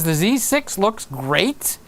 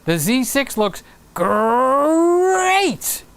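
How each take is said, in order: First: It is said in his normal voice. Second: It is said in a Tony the Tiger voice.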